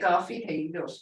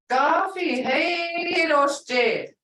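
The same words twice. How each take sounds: First: It is said plainly, without extra emphasis. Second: It is said with strong, exaggerated emphasis.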